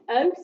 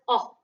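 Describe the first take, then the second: First: The vowel is long, as in no. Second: The vowel is short, as in hot. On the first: "like in the word no" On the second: "like in the word hot"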